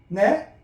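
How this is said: The pitch rises at the end. The listener did not catch what was said. "끄트머리 올려야죠?"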